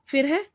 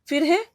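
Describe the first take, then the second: Both takes have the same delivery.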